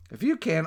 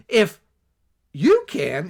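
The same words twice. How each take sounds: First: Said in the usual way. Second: "If" and "you" hit hard and loud; indignant echo. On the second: Retold or imitated. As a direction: throw "If you can" back at him, offended. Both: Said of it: "you're laying it on me".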